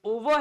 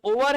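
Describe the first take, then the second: First: "ओवर" with the final R dropped; correct pronunciation. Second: "ओवर" with the final R sounded; wrong pronunciation. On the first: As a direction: say "ओवर" as o-vuh. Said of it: "आर का तो हम आधा ही उच्चारण". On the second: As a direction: say "ओवर" as o-var, full R. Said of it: "ये ना तो ओवर है". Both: Shown as a demonstration.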